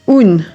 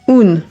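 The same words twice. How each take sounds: First: The vowel is oral, with an n sound. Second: The vowel is oral, with an n sound.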